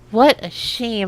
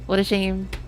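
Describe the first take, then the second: First: It is said in a dramatic, emotional way. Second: It is said flatly, like J C Denton.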